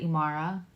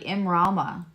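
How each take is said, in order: First: No 'r' follows 'im', giving i-ma-ra. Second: An 'r' follows 'im', giving im-ra-ma. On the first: The speaker calls it wrong. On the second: The speaker calls it right.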